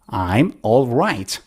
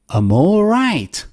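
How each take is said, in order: First: Each word is said fully and carefully. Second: I'm and all are reduced to um and oh. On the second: "Instead of I'm, say um... Instead of all, say oh"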